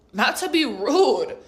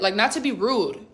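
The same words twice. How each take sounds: First: "rude" higher and drawn out; slow down and lean hard on "rude"; emphatic repeat. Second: Said in the usual way. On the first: Retold or imitated.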